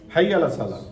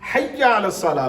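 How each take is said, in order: First: The y sound in the first word is single. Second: The y sound in the first word is doubled. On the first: The speaker calls it wrong. "तो लोग इसको मुशद्दद नहीं पढ़ते, क्या पढ़ते हैं? हई" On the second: The speaker calls it right. "हय्या अलस सलाह लफ़ज़ है"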